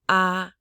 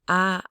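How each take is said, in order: Both takes have the same delivery.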